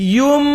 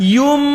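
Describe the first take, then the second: Both takes have the same delivery.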